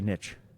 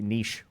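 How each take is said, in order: First: The word rhymes with rich. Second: The word rhymes with quiche. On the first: The speaker calls it right. "that is the correct way to say niche" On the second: The speaker calls it wrong. "It rhymes with quiche instead of rich"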